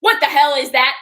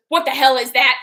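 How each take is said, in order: First: Loud, sharp mock outrage; grandma catching sight of the tattoo, loud; grandma's outraged question. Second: Loud, sharp mock outrage; a grandma shocked at a new tattoo; grandma's outraged question. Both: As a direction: imitate grandma snapping at the tattoo. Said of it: "She says it just like that".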